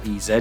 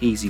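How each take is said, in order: First: The name is said as two letters. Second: The name is said as one word. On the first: "or E Z, depends on how you want to pronounce it" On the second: "an easy wheel brush"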